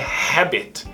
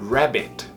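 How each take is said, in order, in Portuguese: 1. A palavra começa com um som de H aspirado. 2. A palavra começa com um som de R do inglês. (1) "Não é habit. Se você fala habit, está parecendo que está falando hábito em inglês" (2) "Preste atenção para a pronúncia do coelho. Rabbit"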